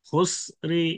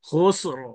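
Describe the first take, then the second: First: A faint short i is heard after the r. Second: The word ends on the consonant with no vowel. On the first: "খুসরি হরকত সামান্য উচ্চারণ করা" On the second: "এটা পুর করে যেমন সাকিন অফ হবে"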